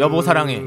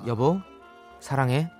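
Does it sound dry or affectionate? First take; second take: dry; affectionate. First: It is said dryly, like a robot. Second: It is said warmly and affectionately.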